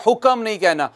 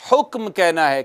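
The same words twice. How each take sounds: First: "हुक्म" said as hukam with an extra vowel; wrong vowel added. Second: "हुक्म" said as hukm with no vowel between k and m; correct cluster. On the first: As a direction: break "हुक्म" into hu-kam. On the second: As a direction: close "हुक्म" tight as hukm. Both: Shown as a demonstration.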